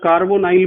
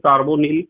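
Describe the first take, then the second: First: The last syllable has a long 'eye' vowel. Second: The last syllable has a short 'i' vowel. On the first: "कार्बोनाइल भी pronunciation सही है" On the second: "वैसे कार्बोनिल लिखा जाता है इसे हिंदी में"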